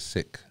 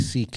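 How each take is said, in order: First: The vowel is short, like in sick. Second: The vowel is long, like in seek. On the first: This is how he says it. "he says sick" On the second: This is how people here say it. "We say seek"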